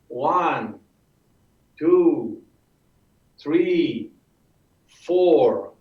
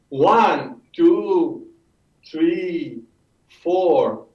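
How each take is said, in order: First: The count is steady and evenly spaced. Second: The count is rushed and too quick. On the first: The speaker calls it right. "The rhythm should have a coordinated pace" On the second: The speaker calls it wrong. "we went too quickly"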